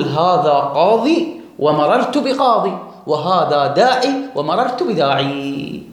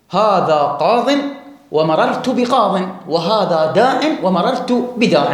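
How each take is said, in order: First: قاضي and داعي ending in a long ee; final ya kept. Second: قاض and داع ending in short in, no long ee; slowly, closing قاض on an n sound; dropped final ya. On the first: Teacher modelling the second dialect, long ee on قاضي and داعي. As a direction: slowly hold the ee closing each noun. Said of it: "إبقاء الياء". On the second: Teacher modelling ya deletion, قاض and داع ending in -in. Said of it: "تحذف الياء". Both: Shown as a demonstration.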